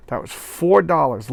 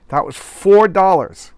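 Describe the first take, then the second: First: Said in the usual way. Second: Louder, slower, higher hammed-up outrage; slowed mock shock at the price; mock excited outrage. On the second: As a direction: ham up the price like a shocked announcer. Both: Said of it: "Shtick is over".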